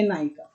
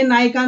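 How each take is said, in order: First: "नायिका" with a short i, lower and softer. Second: "नायिका" with a long ee in the middle. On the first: Teacher picks the right spelling, short-i "नायिका". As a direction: keep the middle i of "नायिका" short. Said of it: "हर्षई वाली". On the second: Teacher rejects the wrong spelling, long-i "नायिका". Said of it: "दीर्घई वाली नहीं". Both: Shown as a demonstration.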